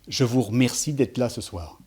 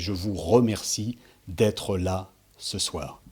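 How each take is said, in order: First: The unstressed E vowels are dropped. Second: The unstressed E vowels are fully pronounced. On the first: The speaker calls it wrong. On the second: The speaker calls it right. "Non, c'est"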